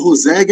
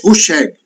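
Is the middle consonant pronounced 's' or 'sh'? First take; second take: s; sh. First: The middle consonant is a plain 's' sound. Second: The middle consonant is a 'sh' sound. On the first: The speaker calls it wrong. "eu chamo ele de Roseg há anos" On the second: The speaker calls it right. "eu estava vendo a pronúncia hoje no, no Google, é Rusheg"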